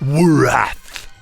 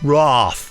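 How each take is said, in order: First: The name has two syllables, with a vowel after W. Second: The name has one syllable, with no added vowel. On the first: The speaker calls it wrong. "the way that I mispronounced it" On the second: The speaker calls it right. "is how it's meant to be"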